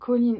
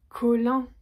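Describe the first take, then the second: First: The name is pronounced the English way. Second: The name is pronounced the French way. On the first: The speaker calls it right. "c'est Colline" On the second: The speaker calls it wrong. "ça me fait penser à Colin Maillard ou au filet de Colin"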